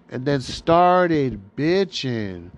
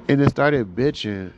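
First: Drawn out slowly, each word leaned on; slowed-down deadpan repeat of "started bitching"; slow emphatic repeat. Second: Said in the usual way. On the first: Shown as a demonstration.

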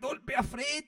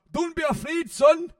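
First: Mock shout. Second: Dad's voice, high and loud, mock-calm; imitating dad. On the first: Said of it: "You're like". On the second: Dad collapsing on the golf course reassures his son, high mock voice. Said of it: "he said to Peter".

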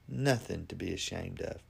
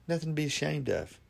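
First: Softer, gentle repeat of the line; soft reassuring echo. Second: Said in the usual way. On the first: Shown as a demonstration. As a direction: let it land quietly and kindly. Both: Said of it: "Just be honest".

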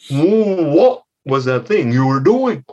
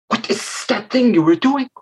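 First: Slow, suspicious parental questioning; questioning mother frog. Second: High-pitched hissing question; disapproving mother snake. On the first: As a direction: lightly play a mother demanding an explanation. Mother frog questions her child. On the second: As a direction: question the child with snaky sibilants. Mother snake questions her child. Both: Acted.

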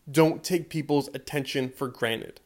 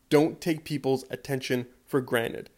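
No difference in how they are said.

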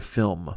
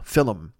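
First: Said in the usual way. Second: "Film" said as FILL-um; playful "Film" stretched into two syllables. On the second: Shown as a demonstration. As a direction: add an uh between l and m in "Film". Playful repeat with an extra syllable.

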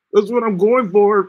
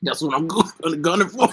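First: Higher, louder and slower, leaning on going; slow, loud, proud finish on going; emphatic restatement. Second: Said in the usual way. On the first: Shown as a demonstration. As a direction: hammer it home as a closing declaration.

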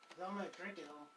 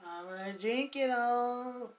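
First: Softer, sly aside; soft tease. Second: Slow, drawn-out teasing taunt. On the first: Teasing Shannon about the coffee, soft sly aside. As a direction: mutter the tease half to yourself. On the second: Answering Shannon's "you wish", slow drawn-out taunt. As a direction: stretch every word to rub it in. Repeats taunt after reply. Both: Real, not acted.

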